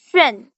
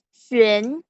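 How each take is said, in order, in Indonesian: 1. Nadanya turun tajam dari tinggi ke rendah. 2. Nadanya naik dari tengah ke tinggi. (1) "Nada empat itu" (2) "Nada kedua itu jadi"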